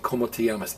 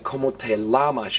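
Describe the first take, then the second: First: The double L sounds like an English Y. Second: The double L sounds like an English L. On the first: The speaker calls it right. "you say como te llamas" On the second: The speaker calls it wrong. "you don't say como te llamas"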